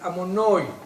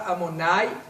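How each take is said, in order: First: It ends with an 'oi' vowel, Ashkenazi style. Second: It ends with an 'ai' vowel, Sephardi style.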